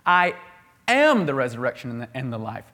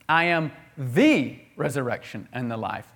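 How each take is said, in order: First: The word "am" carries the main stress. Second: The word "the" carries the main stress. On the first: It exists within the speaker's own being. "He has it in himself" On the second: It is the only one, not one of many. "It's exclusive to Jesus"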